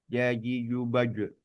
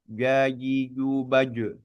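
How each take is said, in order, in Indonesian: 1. Bunyi j dibuat dengan tengah lidah. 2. Bunyi j dibuat dengan tengah lidah.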